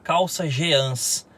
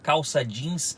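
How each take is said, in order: First: Jeans is said letter by letter as spelled. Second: Jeans is said the usual English-like way.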